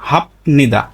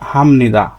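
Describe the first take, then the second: First: A p sound comes before the n. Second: An m sound comes before the n. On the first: The speaker calls it wrong. "স্বাভাবিকভাবে এর উচ্চারণটা কি হতো?" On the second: The speaker calls it right. "এর সঠিক উচ্চারণ হচ্ছে হামনিদা"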